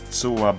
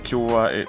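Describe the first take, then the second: First: The word begins with a ts sound. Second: The word begins with a ch sound. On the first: The speaker calls it right. "but it's Tsua, but it's it's near to our desired pronunciation" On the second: The speaker calls it wrong. "It's not Chua"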